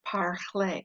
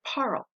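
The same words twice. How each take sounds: First: "parler" ending in a clear AY sound; pronounced final E. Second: "parle" with the final E silent. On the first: Teacher showing what the accent adds, AY ending on "parler". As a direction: slowly sound out "parler" as par-LAY. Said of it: "As soon as I add the accent". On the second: Teacher showing the unaccented word, silent E in "parle". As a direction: say "parle" as one syllable, ending on the L. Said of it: "if there was no accent on this". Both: Shown as a demonstration.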